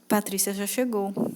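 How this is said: It sounds sad and downcast. The speaker is unhappy about the arrival. "E tristeza"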